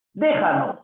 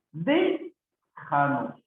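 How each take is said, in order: First: Said in the usual way. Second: "Déjanos" slow, long "Dé", pause, then fall; broken after first syllable. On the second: Shown as a demonstration. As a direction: stretch "Dé" and separate it from the rest. Teacher breaks word up. (separando la primera sílaba, muy lento)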